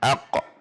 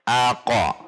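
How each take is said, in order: First: The q only bounces lightly with no vowel. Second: A full vowel sound follows the final q. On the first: The speaker calls it right. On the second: The speaker calls it wrong. "itu memberi harokat namanya"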